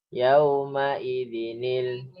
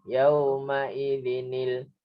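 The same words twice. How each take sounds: The two takes are said the same way.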